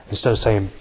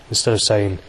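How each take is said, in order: Both takes have the same delivery.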